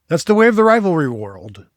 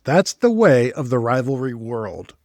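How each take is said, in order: First: Loud, high proclamation that falls away; mock-grand proclamation. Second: Slow, deliberate articulation; careful tongue-twister repeat. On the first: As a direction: proclaim it big, as a playful slogan. Mock-grand line, then tongue-twister repeat. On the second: Shown as a demonstration. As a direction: pick through the tricky words slowly.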